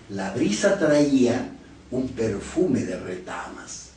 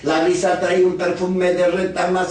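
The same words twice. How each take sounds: First: It is read smoothly in natural phrase groups. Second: It is read very fast without any pauses. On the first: The speaker calls it right. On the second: The speaker calls it wrong.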